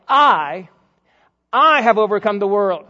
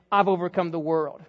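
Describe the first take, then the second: First: "I" held long and loud, then paused and repeated; emphatic I. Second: Said in the usual way. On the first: Shown as a demonstration. Preacher shows the emphatic Greek I, stressing "I" loudly. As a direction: punch "I" hard, well above the rest in volume. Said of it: "almost the emphatic I". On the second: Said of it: "Jesus is not just saying".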